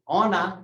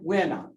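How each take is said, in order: First: The word starts with a plain o sound. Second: The word starts with a w sound. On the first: This is the standard form. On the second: This is the regional dialect form.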